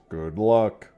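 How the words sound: It is said in the Star Fox voice.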